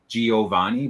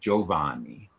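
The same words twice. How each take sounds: First: The i after the g is sounded. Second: The i after the soft g is silent. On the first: This is the commonly heard pronunciation. The speaker calls it wrong. "often hear Giovanni" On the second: This is the official Italian pronunciation. The speaker calls it right. "but it's really Giovanni"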